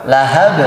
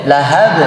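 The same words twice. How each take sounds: Both takes have the same delivery.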